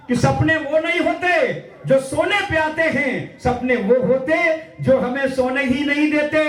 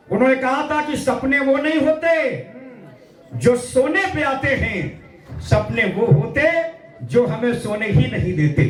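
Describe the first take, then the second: First: Raised, slow recitation with stress on सोने and होते; slow declaimed line. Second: Said in the usual way. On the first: Shown as a demonstration. Poet declaiming Kalam's line for children to remember, slowly and higher. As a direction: declaim it so the children carry it home. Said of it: "एक पंक्ति मंच कह रहा है". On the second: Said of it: "कलाम साहब ने क्या कहा था".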